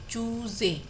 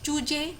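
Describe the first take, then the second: First: The middle consonant is a 'z' sound. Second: The middle consonant is a plain 'j' sound. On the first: The speaker calls it right. "चूंकि हमने यहाँ पर नुक्ता लगाया है, हम इसे पढ़ेंगे चूजे" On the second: The speaker calls it wrong. "हम चूजे चूजे नहीं बोलेंगे"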